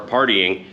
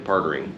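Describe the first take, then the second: First: "partying" with a clear ee before -ing; "partying" with a distinct tee in the middle; corrected pronunciation. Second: "Partying" slurred into "partering"; "Partying" with an er sound before the -ing; mispronounced partying. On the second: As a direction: say "Partying" to rhyme with bartering. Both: Real, not acted. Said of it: "Like bartering and par-, partying".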